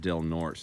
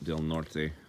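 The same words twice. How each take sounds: First: The name is said with English-style pronunciation. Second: The name is said with Spanish-style pronunciation. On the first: This is how the locals say it. "they call it" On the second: This is how the name would be said in Spanish. "They don't use the correct Spanish pronunciation here"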